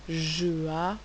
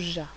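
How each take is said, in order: First: The two sounds are said separately. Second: The two sounds are blended into one syllable. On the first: The speaker calls it wrong. "il est important de ne pas lire je a" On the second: The speaker calls it right. "mais plutôt ja"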